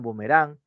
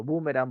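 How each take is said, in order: First: "boomerang" as bu-me-RÁN, stressed on the last syllable; "boomerang" stressed at the end. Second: "boomerang" as BÚ-me-ran, stressed on the first syllable; "boomerang" stressed at the start. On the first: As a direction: say "boomerang" with the weight on RANG. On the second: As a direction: say "boomerang" with the weight on BOO. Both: Shown as a demonstration. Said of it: "las formas de expresar".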